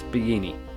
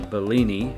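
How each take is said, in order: First: The double L is sounded as a Y. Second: The double L is sounded as an L. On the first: The speaker calls it right. "double L means it's going to sound like a Y" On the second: The speaker calls it wrong. "they just had no idea what I was saying"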